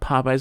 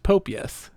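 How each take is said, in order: First: The middle sounds like the word eyes. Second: The middle sounds like ee-us, three syllables. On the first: The speaker calls it right. "you know someone who thought Popeyes" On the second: The speaker calls it wrong. "was pronounced Popius"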